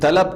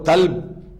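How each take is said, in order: First: A short vowel follows the middle consonant. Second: No vowel follows the middle consonant. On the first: The speaker calls it right. "तलब को" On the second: The speaker calls it wrong. "तलब न पढ़िए"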